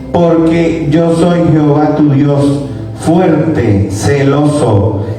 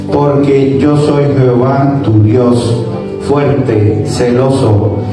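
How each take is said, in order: Both takes have the same delivery.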